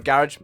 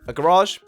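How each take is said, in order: First: It is said in a British accent. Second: It is said in an American accent.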